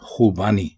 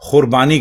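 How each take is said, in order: First: No 'r' sound comes before the 'b'. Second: An 'r' sound comes before the 'b'. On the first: The speaker calls it right. "असल लफ्ज है खुबानी" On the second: The speaker calls it wrong. "खुरबानी कोई लफ्ज नहीं है"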